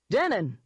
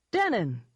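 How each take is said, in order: First: A raised, higher hail; mild shout. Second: Lightly cheerful, higher hail. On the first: Eden hailing Denon on the phone, mildly shouted. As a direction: call out the name heartily, understated shout. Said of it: "he shouted". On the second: Eden back on the phone to Denon, cheerful. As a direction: sing out the name with mild cheer. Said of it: "he said cheerfully". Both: A narrator's reading.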